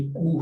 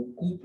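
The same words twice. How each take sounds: First: "कू" ending on a long oo, p silent; correct pronunciation. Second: "कूप" closed with an audible p; wrong pronunciation. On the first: Teacher introducing the word, "कू" with silent p. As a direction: say "कू" with no final p. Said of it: "पी प्रोनाउंसिएट नहीं की जाती". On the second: Teacher warning against misreading, "कूप" with the p voiced out. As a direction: say "कूप" wrongly sounding the final p. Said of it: "कूप नहीं होता". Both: Shown as a demonstration.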